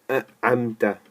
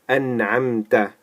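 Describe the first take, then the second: First: The n sound is not pronounced clearly. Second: The n sound is pronounced clearly. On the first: The speaker calls it wrong. "We don't say أنعمت" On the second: The speaker calls it right. "we clearly say this N. It's pronounced very clearly"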